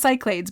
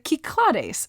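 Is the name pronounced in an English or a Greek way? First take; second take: English; Greek. First: The name is said with English pronunciation. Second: The name is said with Greek pronunciation. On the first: The speaker calls it wrong. "I always thought it was pronounced Cyclades" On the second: The speaker calls it right. "the Greeks pronounce it the Cyclades"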